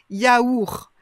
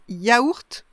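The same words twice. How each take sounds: First: The final T sound is silent. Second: The final T sound is pronounced.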